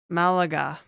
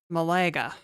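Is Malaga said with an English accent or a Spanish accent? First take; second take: English; English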